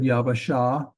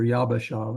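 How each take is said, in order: First: Yabasha said with a v, "ya-va-SHA"; V sound. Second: Yabasha said with a hard b, "yab-ba-SHA"; B sound. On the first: Teacher reads out the example word, Yabasha with a V sound. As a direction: soften the b of Yabasha into a v. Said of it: "a B sound or a V sound". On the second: Teacher corrects the example word, Yabasha with a B sound. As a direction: make the middle of Yabasha a firm b. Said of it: "So we have two B's". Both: Shown as a demonstration.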